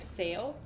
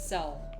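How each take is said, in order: First: The vowel is the long A of sale. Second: The vowel is the short E of sell.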